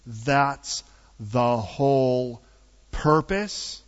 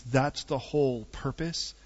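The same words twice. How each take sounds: First: "that's the whole purpose" drawn out word by word; slow emphatic repeat. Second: Said in the usual way. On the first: Real, not acted. Repeats phrase slowly for emphasis.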